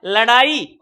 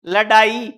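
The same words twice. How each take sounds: First: लड़ाई with a flapped ड़. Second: लड़ाई with a hard stopped ड in place of ड़; undotted ड. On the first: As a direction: flick the tongue on the ड़ in लड़ाई. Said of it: "उच्चारण करके देखो". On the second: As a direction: tap a firm retroflex d in लड़ाई. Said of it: "केवल इस टिमकी की वजह से". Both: Shown as a demonstration.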